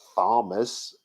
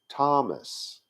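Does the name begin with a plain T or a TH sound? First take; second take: TH sound; plain T. First: The name begins with a TH sound. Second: The name begins with a plain T sound. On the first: The speaker calls it wrong. "It was not supposed to be" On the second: The speaker calls it right. "It was supposed to be"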